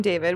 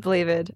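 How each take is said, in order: First: Said in the usual way. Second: Blavid, a tongue slip for David; name slip. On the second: Real, not acted. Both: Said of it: "I mean, David".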